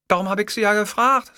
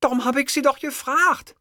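First: High-pitched secretary retort. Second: Very high, sniffly secretary voice; sniffling. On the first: Secretary justifying her question to her boss, high retort. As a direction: answer back in a high secretary voice. Secretary answers, later repeats sniffling. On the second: Secretary scolded by her boss, sniffling. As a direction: protest tearfully in a high voice. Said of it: "schniefte Fräulein Krömeier". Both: A narrator's reading.

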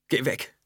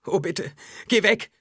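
First: Higher, small begging voice; pleading. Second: Very high, louder begging cry; desperate pleading. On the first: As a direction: beg the voice to leave. (flehend, mit hoher Stimme) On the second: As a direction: beg frantically, voice rising sharply. (verzweifelt flehend, sehr hoch und laut) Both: A narrator's reading. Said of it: "bettelte Alia".

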